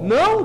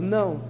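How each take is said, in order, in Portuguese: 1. A palavra é dita de forma firme e enfática. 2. A palavra é dita de forma suave e branda.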